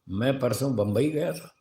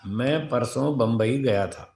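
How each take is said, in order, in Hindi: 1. इसे बदली हुई, प्रश्नवाचक, संदेह भरी लय में कहा गया है। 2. इसे सामान्य, सीधी लय में कहा गया है। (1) "अगर इसी वाक्य को ऐसे बोला जाए, देखो अर्थ बदल गया ना" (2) "तो एक सामान्य सूचना है ये"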